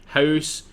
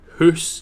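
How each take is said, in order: First: The vowel is an 'ow' diphthong. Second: The vowel is a long 'oo' sound.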